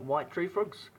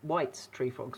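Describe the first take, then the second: First: No s sound follows 'white'. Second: An s sound follows 'white'. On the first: The speaker calls it wrong. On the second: The frogs are named after a person. The speaker calls it right.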